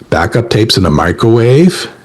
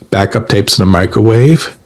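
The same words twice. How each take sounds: First: The voice rises at the end. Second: The voice falls at the end.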